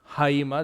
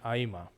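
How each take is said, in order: First: The word begins with an h sound. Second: The word begins directly with a vowel. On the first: This is the classical pronunciation. "the Erasmian or classical pronunciation would use the rough breathing" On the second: This is the modern and Koine pronunciation. "have the pronunciation aima for modern and Koine Greek"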